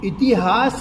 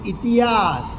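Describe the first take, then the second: First: The h sound is clearly pronounced. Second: The h sound is dropped or barely heard. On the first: This is the standard pronunciation. "નહીં" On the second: This is the North Gujarat dialect pronunciation. "હ શ્રુતિ છે એનો ઘસારો"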